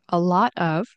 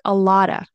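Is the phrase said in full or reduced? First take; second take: full; reduced. First: Each word is said fully, with a clear 'of'. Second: The words run together, ending in 'lotta'. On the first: "which you can definitely say" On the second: "you might hear a lotta"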